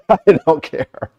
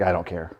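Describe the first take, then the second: First: Higher, amused repeat; laughing dismissal. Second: Low, soft, unbothered reply; offhand retold reply. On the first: Real, not acted. Repeating his answer to the host about nasty comments, laughing. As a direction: laugh it off, unbothered. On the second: Telling how he answered his wife, offhand and quiet. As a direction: brush it off quietly, mildly. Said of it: "I was like".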